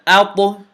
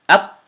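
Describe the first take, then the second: First: The final t is released with an echoing bounce. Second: The final t stops abruptly with no echo. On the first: The speaker calls it right. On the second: The speaker calls it wrong.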